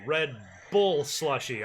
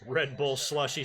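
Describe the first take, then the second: First: The word bull gets strong extra emphasis. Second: The word bull gets no extra emphasis.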